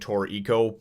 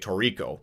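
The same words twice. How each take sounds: First: The name is said slowly and carefully. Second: The name is said quickly and casually. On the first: "when I slow it down like that" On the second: "I just say it fast"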